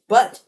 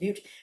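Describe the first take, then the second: First: The vowel is a short 'uh' sound. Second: The vowel is a long 'yoo' sound. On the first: The speaker calls it wrong. "I thought it was but" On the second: The speaker calls it right. "it's pronounced Butte"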